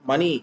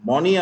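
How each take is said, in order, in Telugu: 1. మొదటి అచ్చు 'uh' లా ఉంటుంది. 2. మొదటి అచ్చు 'o' లా ఉంటుంది. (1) "మనీ అని అంటాం" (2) "మనీ అనకూడదు"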